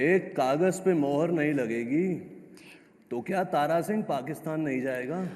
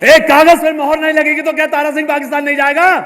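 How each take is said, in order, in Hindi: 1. वाक्य को विराम लेकर, टुकड़ों में बोला गया है। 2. वाक्य एक लगातार प्रवाह में बोला गया है।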